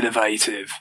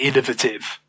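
First: The word is said the American way. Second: The word is said the British way. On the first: "Americans would say innovative" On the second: "British people, I used to hear more would say innovative"

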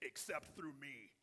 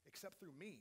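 First: The tone is harsh and exclusionary. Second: The tone is warm and welcoming. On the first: The words are used to push people away. The speaker calls it wrong. "He's not saying" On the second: The words invite people in. The speaker calls it right. "There's a welcome in his voice"

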